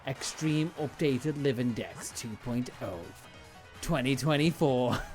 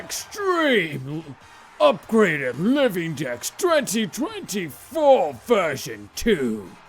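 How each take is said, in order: First: It is said in a normal speaking voice. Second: It is said in an epic announcer voice.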